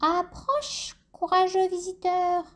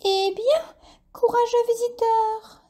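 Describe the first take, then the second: First: High, eerie cave voice; a hollow voice calling from the dark; cavernous voice. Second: Very high, bright exclamation; exclaiming bat. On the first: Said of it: "une voix caverneuse se fit entendre". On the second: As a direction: call out in surprise to the fainted lizard. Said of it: "s'exclama Dolly la chauve-souris". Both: A narrator's reading.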